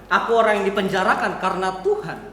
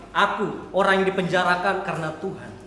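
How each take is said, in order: Both takes have the same delivery.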